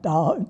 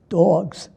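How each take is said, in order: First: It is said without a New York accent. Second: It is said in a New York accent.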